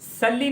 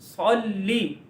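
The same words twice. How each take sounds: First: सल्ली with light s and short flat a; thin S. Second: सल्ली with thick s, rounded first vowel, held l; heavy Saad. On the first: Teacher shows what not to say, thin S. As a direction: say सल्ली quickly and thinly. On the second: Teacher gives the correction, heavy Saad. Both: Shown as a demonstration. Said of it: "सल्ली नहीं कहना".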